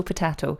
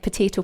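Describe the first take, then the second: First: Potato said puh-TAH-toh; stressed vowel of potato as in "father"; broad-a pronunciation. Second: Potato said puh-TAY-toh; stressed vowel of potato as in "day"; long-a pronunciation. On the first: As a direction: say potato with an "ah" in the middle. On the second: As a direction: say potato with an "ay" in the middle. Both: Shown as a demonstration. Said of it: "depending on how you want to pronounce it".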